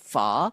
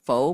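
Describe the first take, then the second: First: The vowel sounds like 'uh', as in 'fuh'. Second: The vowel sounds like 'oh', as in 'foe'. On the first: The speaker calls it right. "is the proper pronunciation" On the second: The speaker calls it wrong. "not pho"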